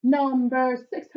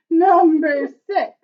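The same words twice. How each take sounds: First: Said in the usual way. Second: Louder and slower with a laugh. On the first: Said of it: "said twice, second laughing". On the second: Real, not acted. Teacher laughing as she announces number six. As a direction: laugh your way through the number.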